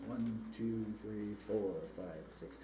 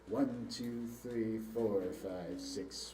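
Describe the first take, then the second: No difference in how they are said.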